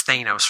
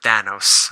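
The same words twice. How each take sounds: First: Thanos said as THAY-nohs; long "ay" in the first syllable of Thanos; former mistaken pronunciation. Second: Thanos said as THAN-ohs; short "a" as in than in Thanos; movie pronunciation. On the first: Collector recalling his old belief, Thanos as THAY-nohs. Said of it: "I thought it was Thanos". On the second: Collector citing the movie's way of saying it, Thanos as THAN-ohs. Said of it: "called Thanos in the movies". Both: Shown as a demonstration.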